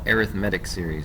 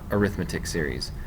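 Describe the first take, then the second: First: The stress is on the third syllable. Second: The stress is on the second syllable. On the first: The word is used as an adjective. The speaker calls it right. "These are called" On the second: The word is used as a noun. The speaker calls it wrong.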